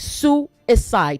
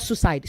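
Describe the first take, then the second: First: The word is said with three syllables. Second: The word is said with two syllables. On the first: The speaker calls it right. "There are three syllables" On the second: The speaker calls it wrong. "not suicide"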